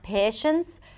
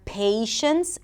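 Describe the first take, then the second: First: The first vowel stays as one steady sound. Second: The first vowel glides into a y sound. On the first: The speaker calls it wrong. "and not" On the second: The speaker calls it right. "a little Y sound for the A as in day"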